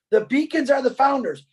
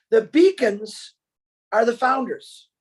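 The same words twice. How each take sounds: First: Said in the usual way. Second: "The beacons" said slowly, with a long pause before "are the founders". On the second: Shown as a demonstration. To webinar listeners, revealing who the beacons are, slow with a dramatic pause. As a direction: break it into two slow pieces, pausing after "beacons".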